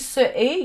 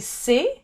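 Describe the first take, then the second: First: It is said as two separate syllables. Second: It is said as one merged syllable. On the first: The speaker calls it wrong. "You don't say ce est" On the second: The speaker calls it right. "you say c'est with a C"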